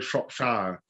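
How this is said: It is said in an American accent. The speaker calls it wrong. "A lot of Americans say Shropshire, which is not good"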